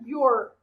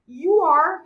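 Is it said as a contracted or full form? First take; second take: contracted; full. First: The words are joined into one contracted syllable. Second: Two separate words are said in full.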